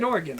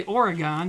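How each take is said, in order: First: Oregon with a short last syllable, OR-uh-gun; local pronunciation. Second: Oregon ending in a full GAHN, OR-uh-gahn; Midwestern pronunciation. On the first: Former resident showing how locals say it, Oregon as OR-uh-gun. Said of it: "That is how you pronounce the state of Oregon". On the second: Streamer showing how people around here say it, Oregon as OR-uh-gahn. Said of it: "people around here say Oregon". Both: Shown as a demonstration.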